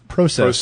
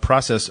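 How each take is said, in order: First: It is said with a Canadian accent. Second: It is said with an American accent.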